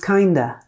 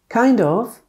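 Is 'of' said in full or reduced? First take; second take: reduced; full. First: The words are reduced with 'of' as a weak schwa. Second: The words are said in full with a clear 'of'. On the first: "becomes kinder" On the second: "Kind of becomes"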